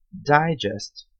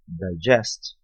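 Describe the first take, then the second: First: Digest stressed on the first syllable, DIgest; noun stress. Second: Digest stressed on the second syllable, diGEST; verb stress. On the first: (Digest com tônica na primeira sílaba, DIgest) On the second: (Digest com tônica na segunda sílaba, diGEST) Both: Shown as a demonstration. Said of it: "sílaba tônica diferente".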